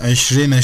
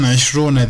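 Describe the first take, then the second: First: Eşrine, with long "ii": esh-REE-ne; chosen reading. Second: Eşrune, with long "uu": esh-ROO-ne; rejected reading. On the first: Teacher posing a question on the reading, chosen reading. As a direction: say eşrine with "ee" before "ne". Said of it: "şeklinde okundu". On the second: Teacher posing a question on the reading, rejected reading. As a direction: say eşrune with "oo" before "ne". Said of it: "değil de". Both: Shown as a demonstration.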